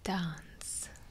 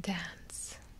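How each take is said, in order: First: The word is said in a British accent. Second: The word is said in an American accent.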